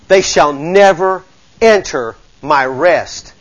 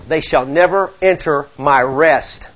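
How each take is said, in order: First: Very slow, weighing each word; slow solemn repeat. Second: Solemn reading. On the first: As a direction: let "They shall never enter my rest" sink in slowly. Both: Shown as a demonstration. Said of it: "repeated slower".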